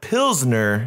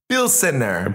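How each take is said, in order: First: The word has two syllables, with no extra vowel. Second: The word has three syllables, with an extra vowel. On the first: The speaker calls it wrong. "Not, not Pilsner" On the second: The speaker calls it right. "Say it right"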